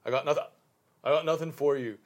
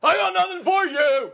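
First: Lightly voiced backwoods country accent; a hint of the hermit's twang. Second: High, loud, slow country hermit yell; shouted country accent. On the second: Acted. Acting out his forest-veteran role, loud country yell. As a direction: bellow I got nothing for you like a backwoods hermit. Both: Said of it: "country accents".

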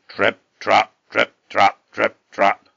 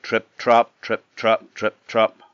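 First: Loud, separated hoofbeat words; heavy stomping footsteps. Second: Punchy trip-trap hoofbeats, louder on the beats; heavier footsteps. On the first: Huge goat shaking the bridge, heavy stomping trip-trap. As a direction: stamp out each word loudly. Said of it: "his footsteps shook it". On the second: Middle goat crossing the bridge, heavier footsteps. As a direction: tap out a goat's heavier steps. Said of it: "footsteps were a bit heavier". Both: A narrator's reading.

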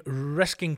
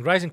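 First: "Risking" with a k sound, misreading rising; a slip of the tongue reading "Risking" for rising; misread word. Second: "Rising" said clearly as rye-zing with the intended z; rereading the news item, getting "Rising" right; corrected word. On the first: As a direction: stumbles and says "Risking" instead of rising. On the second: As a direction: stresses the fixed word "Rising". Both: Real, not acted. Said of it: "I think I should say rising".

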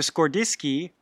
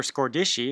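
First: Scordisci with a hard k, "skor-DIS-kee"; hard-c pronunciation. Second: Scordisci with a soft sh, "skor-DISH-ee"; soft-c pronunciation. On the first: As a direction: say Scordisci ending in "skee". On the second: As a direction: say Scordisci ending in "shee". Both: Shown as a demonstration. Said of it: "not sure how to pronounce that".

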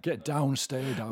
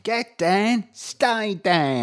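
First: Put-on northern English hard-man accent. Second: Put-on Welsh Cockney tough-guy accent; Danny Dyer voice. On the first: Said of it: "more north than that". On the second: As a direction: growl it like a Welsh Cockney hard man. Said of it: "in a sort of Danny Dyer voice".

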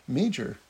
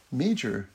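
The two takes are said the same way.

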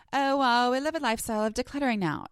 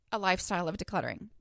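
First: Lightly put-on Valley girl voice; a bright breezy Valley girl quip. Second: Said in the usual way. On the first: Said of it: "why in my head do I talk like a Valley girl". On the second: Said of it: "I am talking about".

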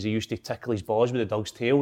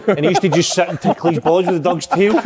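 First: Said in the usual way. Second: Louder, higher, laughing through the words; real giggles pushing the voice up; cracking up. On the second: Real, not acted. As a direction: repeat it while breaking into laughter. Repeats the line, cracking up.

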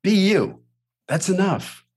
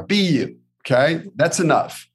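First: Coaching pep talk, firmer. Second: Coaching pep talk. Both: Shown as a demonstration. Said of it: "Coach Billy".

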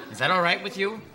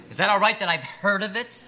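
First: Higher, louder, with a laugh; sarcastic challenge. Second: Higher and much louder, pushing harder; sarcastic outburst. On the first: Interviewer needling the applicant about Pepperdine, sarcastic. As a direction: throw it back at him mockingly. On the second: Interviewer escalating at the applicant over Pepperdine, indignant and loud. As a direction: ramp the mockery into a near shout. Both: Acted.

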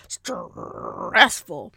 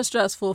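First: "stressful" with a long growled R; exaggerated growl, slowly drawn out. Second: Said in the usual way. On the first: Shown as a demonstration. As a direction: growl through the first syllable of "stressful". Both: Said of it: "You heard the growl".

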